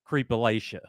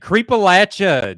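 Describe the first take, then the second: First: The third syllable does not sound like 'latch'. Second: The third syllable sounds like 'latch'. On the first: The speaker calls it wrong. "Do not say" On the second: The speaker calls it right. "how do I pronounce the channel name?"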